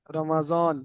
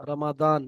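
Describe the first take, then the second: First: "রমাজন" with a buzzed Z in the last syllable; Urdu pronunciation. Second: "রমাদান" with a heavy D, not Z; Arabic pronunciation. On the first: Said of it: "Urdu ভাষার মানুষেরা কেমন বলে". (উর্দু উচ্চারণে "রমাজন") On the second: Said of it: "আরবি থেকে যে সমস্ত ভাইরা বলেন". (আরবি উচ্চারণে "রমাদান") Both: Shown as a demonstration.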